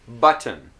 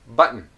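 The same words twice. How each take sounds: First: It is said in a careful, textbook way. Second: It is said in a relaxed, natural way. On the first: "here's how maybe you know these words" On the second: "This is how I would usually pronounce these words"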